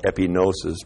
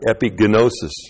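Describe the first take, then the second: First: The g is silent in the middle. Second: The g is sounded in the middle. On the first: This is how it is said today. "We call it epinosis" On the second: This is how it was originally said, with every letter pronounced. "they pronounce it epigenosis"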